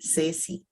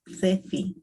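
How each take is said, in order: First: It is said with a Latin American pronunciation. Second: It is said with a Spain Spanish pronunciation. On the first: "But in Latin America, we say Ceci" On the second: "In Spain, maybe, I'm not good for that, but I uh, gonna sound like C"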